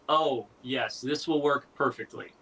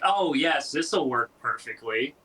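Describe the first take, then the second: First: It is said in a serious tone. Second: It is said in a sarcastic tone.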